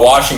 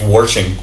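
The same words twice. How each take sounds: First: It is said without an R sound. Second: It is said with an added R sound. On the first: "Not washing" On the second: "the southern thing and add an R"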